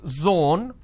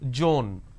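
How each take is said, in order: First: The word begins with a z sound. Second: The word begins with a j sound. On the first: The speaker calls it right. "Instead of saying zone" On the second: The speaker calls it wrong. "they pronounce this as Joan"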